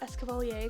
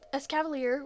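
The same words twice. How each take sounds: First: It is said with an exaggerated French pronunciation. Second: It is said with a plain English pronunciation.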